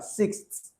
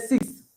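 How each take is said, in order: First: The final th sound is clearly pronounced. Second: The final th sound is swallowed. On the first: A non-native speaker says it this way. "the pronunciation of a non-native English speaker" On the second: A native speaker says it this way. "it will be swallowed by the X"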